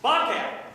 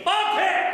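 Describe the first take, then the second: First: Said in the usual way. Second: Bobcat! shouted high and loud; with conviction. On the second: Shown as a demonstration. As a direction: punch out Bobcat! with full conviction. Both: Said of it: "You gotta say it with conviction".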